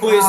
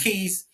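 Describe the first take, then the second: First: The name sounds like the word quiz. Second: The name sounds like the word keys. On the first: The speaker calls it wrong. "If you say quiz, it's an automatic loss" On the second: The speaker calls it right. "It's keys"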